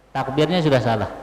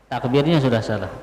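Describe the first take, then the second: Both takes have the same delivery.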